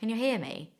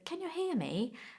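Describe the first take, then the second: First: It sounds relaxed and matter-of-fact. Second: It sounds careful and more polite. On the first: The speaker is talking to someone close. "in a more relaxed way" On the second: The speaker is talking to someone new, like an interviewer. "in a slightly more polite way"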